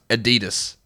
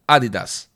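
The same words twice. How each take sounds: First: The word is said in an American-style pronunciation. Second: The word is said in a German-style pronunciation. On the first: The speaker calls it wrong. "It's not pronounced Adidas" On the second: The speaker calls it right. "it's pronounced in German Adidas"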